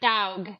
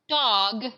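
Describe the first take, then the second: First: The vowel is drawn out, like dawg. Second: The vowel is short and plain. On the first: "here in Texas it sounds like dog" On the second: "not dog"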